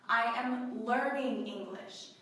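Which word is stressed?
learning. The stress falls on the word learning. The speaker is still studying and not yet fluent. "you are still learning"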